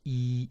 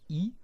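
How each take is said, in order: First: The vowel is drawn out long. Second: The vowel is short.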